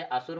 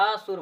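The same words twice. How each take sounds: First: Said in the usual way. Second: असुर with a long अ, then a separate सुर; split word. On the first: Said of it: "असुर माने राक्षस होता है". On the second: Shown as a demonstration. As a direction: lengthen the opening अ of असुर and detach it. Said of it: "असुर माने बिना सुर के". (असुर का अ खींचकर अलग बोलें)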